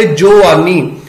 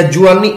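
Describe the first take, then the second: First: ਜੋਆਨੀ read with an o in the first syllable; ਜੋਆਨੀ said joani, the Gurbani reading; scripture reading joani. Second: ਜੁਆਨੀ said as everyday juani; ਜੁਆਨੀ with short u, plain speech form; spoken form juani. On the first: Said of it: "ਇੱਥੇ ਪੜਾਂਗੇ". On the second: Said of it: "ਜਿਵੇਂ ਅਸੀਂ ਜੁਆਨੀ ਕਹਿੰਦੇ ਹਾਂ". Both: Shown as a demonstration.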